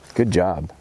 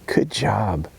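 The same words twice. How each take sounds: First: It sounds sarcastic with a cynical, snotty tone. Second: It sounds warm and sincerely enthusiastic. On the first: The praise is not really meant. The speaker calls it wrong. "there might be a little sarcasm there" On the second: The praise is truly meant. The speaker calls it right. "he really liked what I just did"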